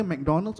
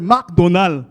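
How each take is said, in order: First: Said in the usual way. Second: Loud, mock Arabic-accented McDonald. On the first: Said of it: "Over here". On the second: Shown as a demonstration. Comic shows how Dubai says McDonald's, loud Arabic accent. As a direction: hit both halves hard with an Arabic accent. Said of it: "over there".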